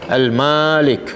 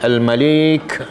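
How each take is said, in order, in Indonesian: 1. Vokal pertama panjang. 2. Vokal kedua panjang. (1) "ma panjang" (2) "lam tu panjang"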